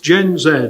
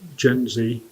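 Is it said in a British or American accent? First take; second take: British; American. First: It is said the British way, as zed. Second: It is said the American way, as zee.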